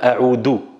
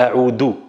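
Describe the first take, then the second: First: The middle consonant is a hard d sound. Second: The middle consonant is a hard d sound.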